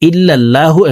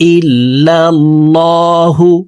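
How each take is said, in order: First: The l in 'Allah' is thin and light. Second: The l in 'Allah' is thick and heavy. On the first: The speaker calls it wrong. "আমরা অনেকে এই শব্দটিকে এভাবে পড়ে থাকি" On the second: The speaker calls it right. "মোটা করে পড়তে হবে"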